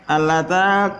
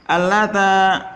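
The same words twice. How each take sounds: The two takes are said the same way.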